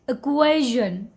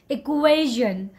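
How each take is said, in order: The two takes are said the same way.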